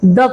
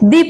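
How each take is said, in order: First: The word ends in a short 'uh' vowel. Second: The word ends in a long 'ee' vowel. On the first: The next word is one that takes 'a'. "अगर द use हुआ है वहां पे sentence में, तो आप उसको क्या पढ़ोगे? द पढ़ोगे" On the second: The next word is one that takes 'an'. "उनके आगे हम अगर द लिखा है तो उसको पढ़ेंगे दी"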